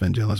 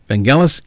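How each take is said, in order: First: The G is pronounced soft. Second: The G is pronounced hard. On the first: The speaker calls it wrong. "there was a lot of people saying" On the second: The speaker calls it right. "Vangelis is the proper pronunciation"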